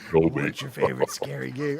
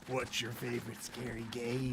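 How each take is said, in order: First: It is a put-on voice with lower pitch. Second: It is a Ghostface voice with higher pitch.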